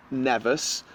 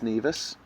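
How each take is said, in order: First: "Nevis" said with a short e; common mispronunciation. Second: "Nevis" said with a long ee; correct pronunciation. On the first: Retold or imitated. Guest quoting people who have never heard of it, mispronounced. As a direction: say "Nevis" like NEV-iss. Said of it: "but it's actually pronounced Nevis". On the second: Shown as a demonstration. Guest correcting how the island is pronounced, correct pronunciation. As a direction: say "Nevis" like NEE-vis. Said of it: "it's actually pronounced Nevis".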